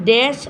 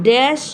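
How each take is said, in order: No difference in how they are said.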